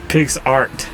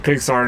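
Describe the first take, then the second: First: The final T sound is clearly pronounced. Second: The final T sound is left off.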